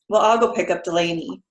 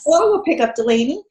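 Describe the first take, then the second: First: It sounds put-upon and resentful. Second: It sounds glad and willing.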